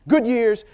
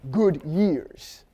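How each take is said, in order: First: The two words are said quickly together. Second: The two words are said slowly and apart.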